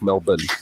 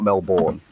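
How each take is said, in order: First: It is said the way Australians say it. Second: It is said the way outsiders say it. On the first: The speaker calls it right. "It's pronounced Melbourne, by the way, like Melbourne" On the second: The speaker calls it wrong. "not Melbourne. A lot of people say Melbourne, but that's only people from outside of Australia"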